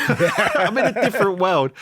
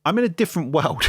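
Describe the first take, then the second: First: Higher, slower, laughing through it; amused disbelief at his new world; laughing repeat. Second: Said in the usual way. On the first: Real, not acted. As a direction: savour the line with a laugh. The same line repeated, laughing.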